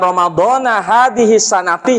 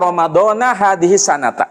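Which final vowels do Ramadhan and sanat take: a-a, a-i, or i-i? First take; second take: a-i; a-a. First: Ramadhan ends in a, sanat ends in i. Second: Ramadhan ends in a, sanat ends in a. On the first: The speaker calls it wrong. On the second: The speaker calls it right. "Yang benar ada dua cara"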